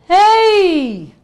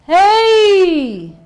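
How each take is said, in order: The two takes are said the same way.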